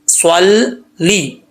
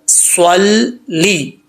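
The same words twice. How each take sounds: Both takes have the same delivery.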